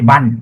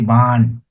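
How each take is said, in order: First: The vowel is short and clipped. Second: The vowel is long and drawn out. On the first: The speaker calls it wrong. "You don't say ban" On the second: The speaker calls it right. "You say ban, father ... So you drag your A"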